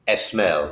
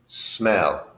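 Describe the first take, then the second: First: The word begins with an added vowel sound. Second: The word begins directly with an S sound. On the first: The speaker calls it wrong. "No, this is wrong" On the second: The speaker calls it right. "the sound of the word begins with the letter S"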